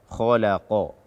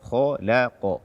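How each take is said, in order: No difference in how they are said.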